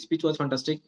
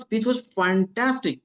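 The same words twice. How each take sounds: First: The phrase is said flatly with little energy. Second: The phrase is said with lively, enthusiastic energy. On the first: The appreciation feels diluted. The speaker calls it wrong. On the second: The appreciation is truly conveyed. The speaker calls it right.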